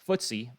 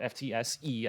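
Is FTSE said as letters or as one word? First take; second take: word; letters. First: It is said as a single word. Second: It is said as four separate letters.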